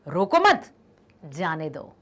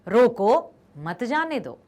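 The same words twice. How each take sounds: First: There is a short pause after 'mat'. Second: There is a short pause after 'roko'. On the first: "और दूसरा क्या है?" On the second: "रोको के बाद हम थोड़ा सा रुक जाएं क्योंकि कॉमा है"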